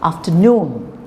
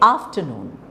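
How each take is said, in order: First: The main stress falls on the last syllable. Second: The main stress falls on the first syllable. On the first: The speaker calls it right. "actually it is afternoon" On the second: The speaker calls it wrong. "So we say afternoon"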